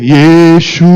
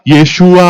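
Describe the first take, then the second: First: The word is drawn out slowly, delaying the last vowel. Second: The word is said quickly, reaching the last vowel soon. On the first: The speaker calls it wrong. "até chegar nesse bendito desse A, me dá uma agonia" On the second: The speaker calls it right. "canta rápido, tá? ... Pode fazer assim"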